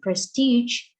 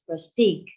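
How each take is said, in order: First: The word ends in a soft zh sound. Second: The word ends in a hard g sound. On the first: The speaker calls it right. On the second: The speaker calls it wrong.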